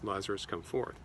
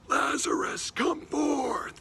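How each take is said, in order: First: It is said at a normal, quiet level. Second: It is shouted in a very loud voice.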